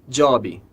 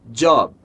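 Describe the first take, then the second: First: It ends with an added vowel sound. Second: It ends cleanly on the final consonant. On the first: The speaker calls it wrong. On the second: The speaker calls it right.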